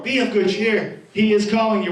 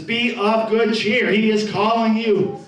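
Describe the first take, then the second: First: Said in the usual way. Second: Slow calling out. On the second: Acted. Crowd calls the blind man.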